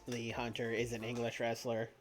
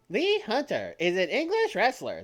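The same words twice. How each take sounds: First: It is said in his normal voice. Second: It is said in a put-on TikTok girl voice.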